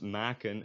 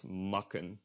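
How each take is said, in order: First: "maken" with a long open "aa" in the first syllable; tense A. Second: "makken" with a short back A, like "mucken"; lax A. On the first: Teacher showing the correct verb, tense A. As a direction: say "maken" as "maa-ken". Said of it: "this pronounced maken". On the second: Teacher showing what not to say, lax A. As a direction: say "makken" with the checked short vowel. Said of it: "and not makken". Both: Shown as a demonstration.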